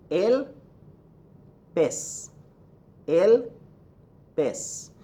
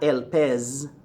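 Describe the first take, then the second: First: Pez said "pess", el pitched high, then a pause; el, pause, pez ending in a hissed s. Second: Pez said slowly with a buzzing z; el pez ending on a long English zzz; wrong Z sound. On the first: Teacher giving the perfect example, pez as "pess". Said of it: "It's an S sound". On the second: Teacher showing the mistake, pez with buzzing z. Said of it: "There is no Z in Spanish". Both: Shown as a demonstration.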